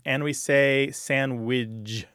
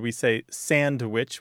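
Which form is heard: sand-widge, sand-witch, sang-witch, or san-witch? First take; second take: sand-widge; sand-witch. First: It ends in widge instead of witch. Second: It has a clear d and ends in witch. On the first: "widge at the end instead of witch at the end" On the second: "which is standard"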